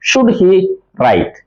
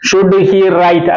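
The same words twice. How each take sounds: First: 'Should he' is grouped, then a break before 'write'. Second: All three words run together without a break. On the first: The speaker calls it right. "Should he എന്നുള്ള ഒരുമിച്ച് പറയുക, right വേറെ ആയിട്ട് പറയുക" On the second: The speaker calls it wrong. "അങ്ങനെ പറയരുത്"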